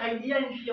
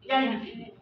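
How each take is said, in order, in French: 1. Le 'il' du début est bien prononcé. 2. Le 'il' du début est complètement supprimé. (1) "Au lieu de dire" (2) "on dit simplement"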